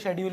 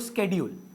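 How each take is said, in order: First: The word begins with an sh sound. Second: The word begins with an sk sound. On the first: This is how we usually say it. "हम तो शेड्यूल ही बोलते हैं" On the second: This is how very English speakers say it. "आप बहुत अंग्रेज हैं तो स्केड्यूल"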